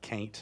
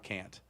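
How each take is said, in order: First: The vowel rhymes with ain't. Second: The vowel sounds like the vowel in ant. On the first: "I said can't" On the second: "not can't, because can't doesn't rhyme with ain't"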